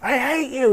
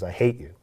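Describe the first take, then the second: First: It is screamed loudly. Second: It is said quietly.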